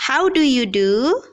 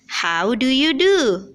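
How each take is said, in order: First: "How do you do?" asked with a rising end, a little higher and louder; greeting intonation. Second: "How do you do?" answered slowly with a falling end on "do"; reply intonation. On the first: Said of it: "Jadi kalau kita sapa". ("How do you do?" dengan nada naik di akhir) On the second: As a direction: answer it back, settling down at the end. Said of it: "Responnya adalah". ("How do you do?" dengan nada turun di akhir) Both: Shown as a demonstration.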